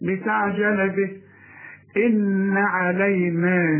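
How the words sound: There is a pause after bihi. The reciter stops at the verse end. "انما اذا وقفت وده وقف كويس"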